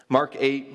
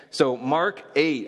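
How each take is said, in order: First: Said in the usual way. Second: So Mark eight, each word slow and weighted, pitch higher; slow announce. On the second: Shown as a demonstration. Preacher announcing the chapter, slow and emphatic.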